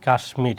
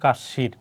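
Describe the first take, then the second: First: The word is said with an m sound. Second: The word is said without an m sound. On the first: This follows the Sanskrit rule. "এখানে হয়েছে কি কাশ্মীর" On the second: This follows the Bengali spelling rule. "Bangla অনুসারে, হওয়ার কথা ছিল কাশির"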